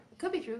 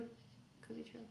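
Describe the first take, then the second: First: Said in the usual way. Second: Breathy whispered aside. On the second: Shown as a demonstration. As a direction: whisper it like a secret. Whispered repeat of same phrase.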